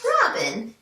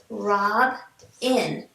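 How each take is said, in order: First: "Robin" said as one smooth word; blended word. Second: "Rob" then "in" as separate beats with a pause; syllables split. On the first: Teacher blending syllables back together for students. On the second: Teacher splitting syllables for students, slowly. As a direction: say "Rob" and "in" apart. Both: Shown as a demonstration. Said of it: "let's put it together".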